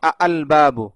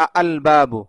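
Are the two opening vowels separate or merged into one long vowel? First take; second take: separate; separate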